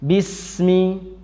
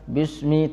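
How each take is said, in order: First: The s is said with audible breath escaping. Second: The s is said without audible breath escaping. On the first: The speaker calls it right. "tapi bismi, ... ada nafas yang keluar" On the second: The speaker calls it wrong. "bukan bismi"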